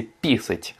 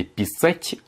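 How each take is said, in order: First: Писать stressed on the first syllable, ПИ-сать; Russian stress demo. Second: Писать stressed on the second syllable, пи-САТЬ; Russian stress demo. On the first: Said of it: "donc sur la première syllabe". (писать accentué sur la première syllabe, PI-sat') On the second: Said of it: "l'accentuation est sur la deuxième syllabe". (писать accentué sur la deuxième syllabe, pi-SAT') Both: Shown as a demonstration.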